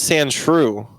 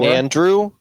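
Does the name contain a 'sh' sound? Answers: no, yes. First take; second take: yes; no. First: The name is said with a 'sh' sound. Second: The name is said without a 'sh' sound. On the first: The speaker calls it right. "I thought it was Sandshrew" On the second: The speaker calls it wrong. "are you pronouncing it Sandrew? Like his name's Andrew"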